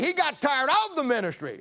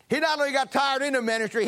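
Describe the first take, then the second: First: "of" stressed, higher pitch, falling; preacher contrasting "of" with "in". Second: "not" and "in" stressed, higher; preacher driving home "in the ministry". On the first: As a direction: punch "of" in "tired of the ministry". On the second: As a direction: punch "not only" and "in". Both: Shown as a demonstration.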